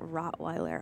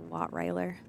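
First: The word begins with an R sound. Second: The word begins with a W sound. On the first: The speaker calls it right. "the dog Rottweiler" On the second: The speaker calls it wrong. "I always say Wattweiler"

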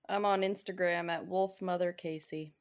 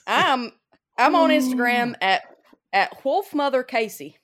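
First: It is said in a plain, ordinary way. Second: It is said with gusto and extra energy.

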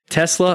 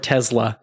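First: The middle consonant is a hissing S sound. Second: The middle consonant is a buzzing Z sound. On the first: "Tesla or Tesla? S or Z?" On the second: "Tesla or Tesla? S or Z?"

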